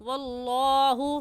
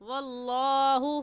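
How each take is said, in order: Both takes have the same delivery.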